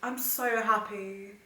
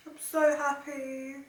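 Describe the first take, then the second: First: Slow, tender "I'm so happy" with "so" drawn out; overwhelmed happy. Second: Higher, slow "I'm so happy" with "so" lifted high; overjoyed, "so" pitched way up; happy squeal. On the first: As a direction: savor the words slowly, moved. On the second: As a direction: let the joy spill up into a squeak. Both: Real, not acted.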